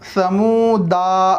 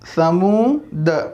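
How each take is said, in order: First: The word ends with an 'a' vowel. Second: The word ends on the 'd' consonant. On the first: The speaker calls it wrong. "तीसरी लाइन है समूदा" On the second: The speaker calls it right. "दाल के बाद का अलिफ साइलेंट होगा और पढ़ेंगे समूद"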